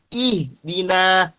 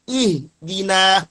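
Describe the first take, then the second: The two takes are said the same way.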